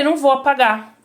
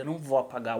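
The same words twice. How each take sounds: First: High, raised-voice defiance; loud refusal. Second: Low, soft, controlled no; quiet refusal. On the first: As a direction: refuse forcefully, pitch and volume up. Repeated refusal, now escalated. (recusa em voz alta, exaltada) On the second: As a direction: refuse under control, voice dropped. First, quiet refusal to director. (recusa firme em voz baixa) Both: Retold or imitated.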